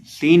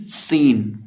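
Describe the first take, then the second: First: सीन with a weak, dull opening स; seen without whistle. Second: सीन opening on a sharp, held hiss; whistled seen. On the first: Teacher showing what to avoid, unwhistled सीन. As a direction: say सीन without any sharp hiss. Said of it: "सीन नहीं". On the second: Teacher correcting the letter, whistled स in सीन. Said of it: "सीटी की आवाज़ पैदा करनी है". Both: Shown as a demonstration.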